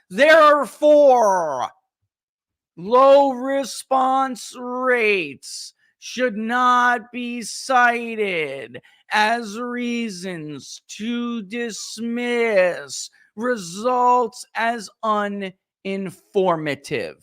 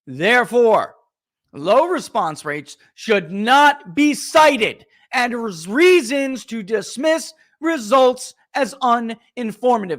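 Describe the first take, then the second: First: It is read very slowly. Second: It is read at normal speed.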